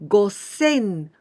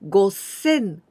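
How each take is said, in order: The two takes are said the same way.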